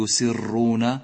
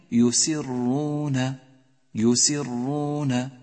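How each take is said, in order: First: يسرون with the R wrongly trilled several times; repeated R error. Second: يسرون slow, with one held R, no repeated trill; correct doubled R. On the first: Teacher showing the mistake to avoid, يسرون with over-trilled R. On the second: Teacher modelling the right reading, slow chanted يسرون with held R. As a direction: hold the ر in يسرون and lengthen the vowel. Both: Shown as a demonstration. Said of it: "إياك أن تكرر الحرف".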